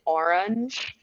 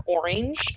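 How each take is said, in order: First: "orange" carefully without the Southern accent; trained newscast pronunciation. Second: "orange" in a Southern accent, drawn out. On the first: Woman showing her practiced word, careful non-Southern pronunciation. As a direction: say "orange" like a news anchor, each syllable careful. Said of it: "I had to say orange". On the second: Woman showing the Southern word she avoided, Southern accent. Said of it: "not saying things like orange". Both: Shown as a demonstration.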